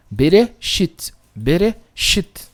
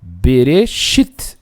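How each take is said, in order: First: Bereshit said twice slowly and evenly; calm repeated Bereshit; slow repetition. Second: Bereshit drawn out very slowly, ending on a rise; slow model reading. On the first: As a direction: let the class hear Bereshit again slowly. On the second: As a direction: spell Bereshit out with your voice. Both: Shown as a demonstration. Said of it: "o Aleph aqui não tem som nenhum".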